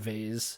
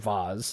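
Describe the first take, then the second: First: The word has a plain, everyday pronunciation. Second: The word has a fancy, posh-sounding pronunciation.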